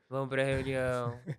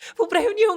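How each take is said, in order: First: It sounds reluctant and unenthusiastic. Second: It sounds lively and enthusiastic. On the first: The speaker does not like the idea. "ai, tem que ir pra reunião" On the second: The speaker is happy to go. "eu estou muito animada"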